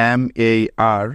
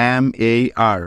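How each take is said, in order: Both takes have the same delivery.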